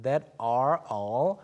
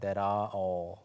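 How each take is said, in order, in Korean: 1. 미국식 억양으로 흐릅니다. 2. 영국식 억양으로 흐릅니다. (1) "미국식 흐름이라면" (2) "여기서는"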